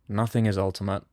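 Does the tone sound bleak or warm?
bleak. It is said in a bleak, negating tone. Nothing has final value at all. "a negation"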